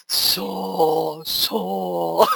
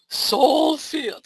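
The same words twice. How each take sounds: First: Failed sweet voice. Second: Higher, sugary try at soul field; syrupy sweet attempt. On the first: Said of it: "that doesn't come out right". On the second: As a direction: try to sound sugary and spiritual. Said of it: "I can't do it". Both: Shown as a demonstration.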